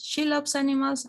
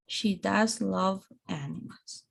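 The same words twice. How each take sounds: First: Said in the usual way. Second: DOES given its full weight before "love"; emphatic DOES. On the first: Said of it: "as a normal statement". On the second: Shown as a demonstration. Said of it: "For emphasizing".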